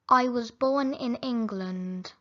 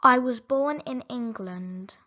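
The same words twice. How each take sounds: The two takes are said the same way.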